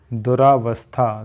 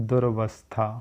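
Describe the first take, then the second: First: दुरावस्था with long aa after du-r; wrong form. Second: दुरवस्था with short a, said softly; correct form. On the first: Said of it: "दुरावस्था नहीं होता है". (गलत रूप दुरावस्था) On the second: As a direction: quietly give दुरवस्था as the right form. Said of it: "नहीं होता है". (सही रूप दुरवस्था) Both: Shown as a demonstration.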